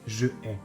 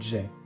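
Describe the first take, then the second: First: The vowel of 'je' is kept separately. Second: The vowel of 'je' is dropped. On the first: The speaker calls it wrong. "We never say je ai" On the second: The speaker calls it right. "but j'ai"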